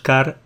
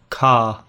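First: It has a strong Spanish-style R. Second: It has a British accent without R.

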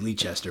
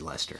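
First: The name is said the American way. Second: The name is said the British way.

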